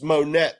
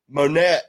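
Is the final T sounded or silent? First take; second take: sounded; silent. First: The final T is sounded. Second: The final T is silent. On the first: The speaker calls it right. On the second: The speaker calls it wrong.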